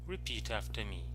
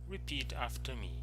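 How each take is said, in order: No difference in how they are said.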